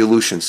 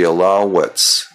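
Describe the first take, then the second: First: The name ends with a 'shuns' sound. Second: The name ends with an 'ets' sound. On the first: The speaker calls it wrong. "I used to call them the Aleutians. They're not the Aleutians" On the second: The speaker calls it right. "the Alouettes"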